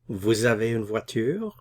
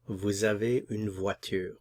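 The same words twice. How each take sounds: First: The voice rises at the end. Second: The voice falls at the end.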